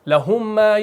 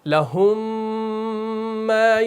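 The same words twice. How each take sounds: First: The m sound is clipped short, not drawn out. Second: The merged m sound is held and drawn out. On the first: The speaker calls it wrong. "ऐसे नहीं पढ़ना है" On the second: The speaker calls it right. "तो थोड़ा सा आवाज़ को खींचना है"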